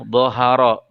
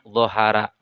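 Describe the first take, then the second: First: The r sound is thick and heavy. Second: The r sound is thin and light. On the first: The speaker calls it right. "maka ra dibaca tebal" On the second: The speaker calls it wrong.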